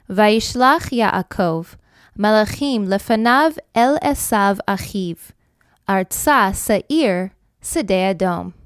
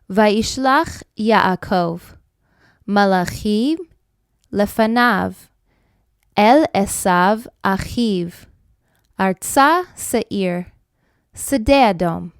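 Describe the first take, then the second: First: The verse is read at a normal pace. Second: The verse is read at a slower pace.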